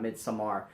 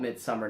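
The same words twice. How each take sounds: First: "Midsommar" with an open -ar at the end; rejected -ar pronunciation. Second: "Midsommar" ending in a plain -er, not -ar; Anglicized pronunciation. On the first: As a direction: say Midsommar as mid-so-MAR. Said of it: "not Midsommar". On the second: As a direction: say Midsommar like English "midsummer". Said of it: "I'm gonna call it Midsommar". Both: Shown as a demonstration.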